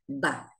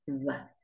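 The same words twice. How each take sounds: First: The lips close fully for a hard, strong 'b'. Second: The lips stay slightly open for a soft 'b'. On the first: "Cierro los labios y golpeo" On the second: "con los labios levemente abiertos"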